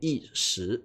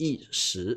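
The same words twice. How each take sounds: First: It is said with the mainland Mandarin pronunciation. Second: It is said with the mainland Mandarin pronunciation.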